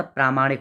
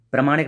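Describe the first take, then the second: First: "प्रामाणिक" with long first vowel, praa-maanik; correct form प्रामाणिक. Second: "प्रामाणिक" with short first vowel, pra-maanik; wrong form प्रमाणिक. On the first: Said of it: "प्रामाणिक होता है". ("प्रामाणिक" में प्रा लंबा) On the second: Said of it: "प्रामाणिक नहीं होता". ("प्रामाणिक" का पहला स्वर छोटा, गलत रूप) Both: Shown as a demonstration.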